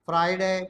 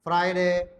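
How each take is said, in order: No difference in how they are said.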